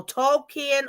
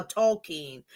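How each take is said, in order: First: Tolkien as TOHL-kee-en, three syllables; pronunciation variant. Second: Tolkien as tohl-KEEN, two syllables; pronunciation variant. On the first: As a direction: split the end of Tolkien into "kee-en". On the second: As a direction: close Tolkien on a single "keen". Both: Shown as a demonstration. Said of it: "Tolkien or Tolkien".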